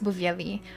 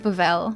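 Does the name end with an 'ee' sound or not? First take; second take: yes; no. First: The name ends in an 'ee' sound. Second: The name ends in an 'l' sound. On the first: The speaker calls it wrong. "I heard a lot of other people say that it's Bavieli" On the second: The speaker calls it right. "I read it as Bavel"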